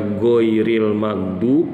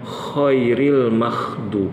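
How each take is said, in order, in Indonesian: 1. Bunyi pertama adalah gh bersuara, dari tenggorokan. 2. Bunyi pertama adalah kh tak bersuara, dari tenggorokan. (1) "kalau dia nggak baca goiril magdu" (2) "huruf ghoinya diubah menjadi kho"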